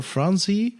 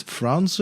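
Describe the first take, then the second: First: FRAN-zee, last vowel a clear ee; Franzi with ee ending. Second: FRAN-zuh, last vowel a schwa; Franze with uh ending. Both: Shown as a demonstration. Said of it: "how do you pronounce that?".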